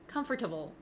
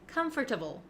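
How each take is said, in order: First: The middle 'or' sound is fully pronounced. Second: The middle 'or' sound is fully pronounced.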